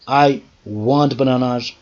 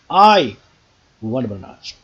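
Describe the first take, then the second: First: The stress falls on the word bananas. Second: The stress falls on the word I. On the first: Bananas, not some other fruit. "but nothing else. But not oranges" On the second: This person, not someone else. "Nobody else. Okay, I, not you, want bananas"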